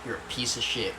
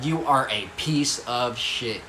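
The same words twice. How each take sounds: First: Said in the usual way. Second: "You are a piece of shit" spaced out word by word; "You are a piece of shit" drawn out, every word stressed; slow emphatic repeat. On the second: Retold or imitated. Self-reproach repeated for emphasis.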